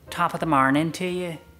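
It is said in an Irish accent.

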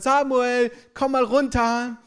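It is said in a relaxed, friendly tone.

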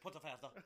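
It is said in a put-on Spanish-style accent.

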